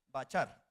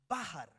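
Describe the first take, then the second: First: The middle consonant is a 'ch' sound. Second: The middle consonant is a throaty 'kh' sound. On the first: The speaker calls it wrong. "El bache que uno va a bachar" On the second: The speaker calls it right. "Se pronuncia bajar"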